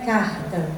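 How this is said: The R is a soft, breathy throat sound. This is how speakers from Belo Horizonte say it. "um R assim, sopradinho, mais suave"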